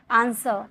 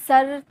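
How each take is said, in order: First: answer with a light, falling सर; unstressed final syllable. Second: सर held long and stressed; wrongly stressed syllable. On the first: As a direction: say answer without pushing the सर. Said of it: "इसमें आप जोड़ नहीं दोगे". (Answer, सर पर ज़ोर दिए बिना) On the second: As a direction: exaggerate सर as the mistake. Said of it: "सर थोड़ी बोल रहे". (सर को खींचकर ज़ोर देना) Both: Shown as a demonstration.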